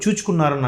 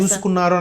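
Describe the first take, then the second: First: The middle consonant is pronounced 'ch'. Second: The middle consonant is pronounced 's'. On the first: This is one famous actor's personal way of saying it. "ఆయన style అది" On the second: This is the standard way of saying it. "చూసుకున్నారు అని అనడం రా- ఎప్పు- అనడం రాక కదా"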